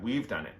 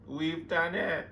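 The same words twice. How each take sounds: First: Said in the usual way. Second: High, drawn-out cry of triumph; emotional squeal. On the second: Real, not acted. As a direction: stretch it out high, overcome with joy. Celebration repeated as squeal.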